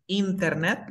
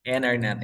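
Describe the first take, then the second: First: INTERNET with a clear T after the N; T pronunciada. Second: INTERNET with no first T, like "inernet"; T muda. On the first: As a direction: sound out the first T in INTERNET. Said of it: "En lugar de decir". (INTERNET con la T marcada) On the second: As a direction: drop the T after N in INTERNET. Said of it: "¿qué voy a decir?". (INTERNET sin la primera T) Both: Shown as a demonstration.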